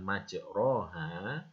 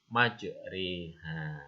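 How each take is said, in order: First: The vowel after r is a plain open a. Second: The vowel after r leans toward an i. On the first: The speaker calls it wrong. "bukan majroha" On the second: The speaker calls it right. "maka A-nya dimiringkan ke arah bacaan I"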